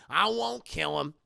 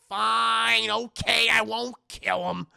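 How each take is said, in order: First: Lower, subdued repeat of a concession; resigned acted grumble; grudging promise. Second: Loud, grudging acted concession; exasperated and loud, imitating a character; exasperated giving in. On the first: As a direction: give in sullenly, with the force gone. Second, subdued giving in. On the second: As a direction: burst out as if forced to agree.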